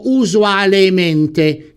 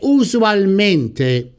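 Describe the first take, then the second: First: An extra e vowel is said before mente. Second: No vowel is said before mente. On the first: The speaker calls it wrong. "che però è scorretto" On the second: The speaker calls it right. "La forma corretta di questo avverbio è usualmente"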